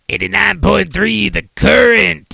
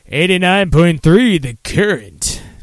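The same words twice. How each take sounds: First: It is said in a rough, raspy voice. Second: It is said in a put-on radio DJ voice.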